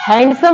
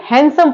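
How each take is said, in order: First: हैंडसम with the d sounded, "hand-sum"; गलत उच्चारण, डी बोलकर हैंडसम; wrong pronunciation. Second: हैंडसम said with a silent d, as "hansum"; हैंडसम बिना डी की आवाज़ के; correct pronunciation. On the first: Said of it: "नहीं पढ़ते हैं". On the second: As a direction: drop the d in हैंडसम. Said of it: "हैंडसम नहीं पढ़ते हैं". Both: Shown as a demonstration.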